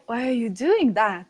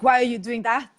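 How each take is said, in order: First: The question sounds amazed and genuinely curious. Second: The question sounds disapproving and judgmental. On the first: The asker truly wants to know the reason. The speaker calls it right. "With real curiosity, you don't know" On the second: The asker already thinks the action is bad. The speaker calls it wrong. "of what is bad and what is good, and asking with that"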